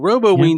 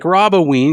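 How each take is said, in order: First: It begins like the word robot. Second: It begins like the name Rob. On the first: The name suggests a candy-collecting robot. "Roboween sounds like we've built a robot" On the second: The name refers to Rob. "I like Roboween because it's you"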